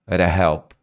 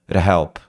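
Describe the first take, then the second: No difference in how they are said.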